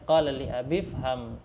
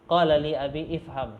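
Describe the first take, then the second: First: The words are run together without a glottal stop. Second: A separate glottal stop and vowel start ifham. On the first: The speaker calls it right. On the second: The speaker calls it wrong.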